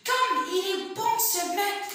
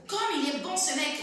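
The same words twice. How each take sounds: First: High, slow, sing-song "Comme il est bon ce mec"; exclamative intonation. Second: Said in the usual way. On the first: Shown as a demonstration. Teacher demonstrating an exclamation's intonation. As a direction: exclaim it with admiring lift. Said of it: "J'augmente l'intonation ... façon exclamative". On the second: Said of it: "J'augmente l'intonation".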